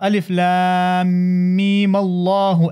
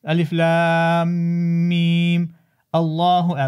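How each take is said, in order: First: Meem takes a short a, flowing into Allah. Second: Meem stops, then Allah starts with glottal stop. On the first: This is the common reading. "مفتوح الميم" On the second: This is a variant reading with a pause intended. "مقطوعا ... سكن الميم ... ثم قطع الهمزة"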